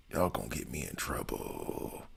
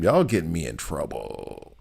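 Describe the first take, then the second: First: Low, much softer muttered repeat; mock grumble. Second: Said in the usual way. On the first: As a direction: drop it down and mumble it under the breath. Repeats the complaint to chat.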